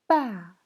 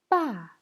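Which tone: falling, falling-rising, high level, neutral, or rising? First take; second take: falling; falling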